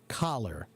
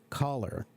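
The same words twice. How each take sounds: First: The vowel is said with the mouth wide open. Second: The vowel is said with the mouth barely open. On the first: The speaker calls it right. "Big mouth" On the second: The speaker calls it wrong. "if your mouth is only open this much"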